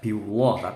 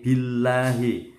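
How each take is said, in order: First: The l is pronounced heavy and dark. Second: The l is pronounced light and thin. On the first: The speaker calls it wrong. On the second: The speaker calls it right. "tarqiq karena sebelumnya ada kasroh"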